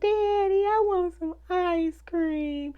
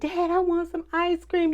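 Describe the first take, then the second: First: It is said in a cute, pleading way. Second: It is said as a plain request.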